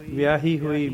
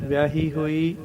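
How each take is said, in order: Both takes have the same delivery.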